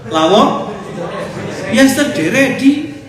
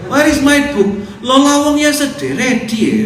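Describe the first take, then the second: First: Put-on the words Lawang ya sedere di said high, loud and slow in a thick regional accent; mock regional accent. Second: Put-on high, loud, slow English in a thick regional accent; mock regional accent. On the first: An ustaz repeats the accented phrase for his congregation. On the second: An ustaz mocks how students speak English with a thick accent. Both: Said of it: "Itu namanya aksen".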